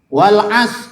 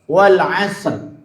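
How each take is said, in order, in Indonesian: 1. Bunyi r di akhir dihilangkan. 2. Bunyi r di akhir diucapkan. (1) "Apaan wal as? Kok wal as?" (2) "Yang benar apa?"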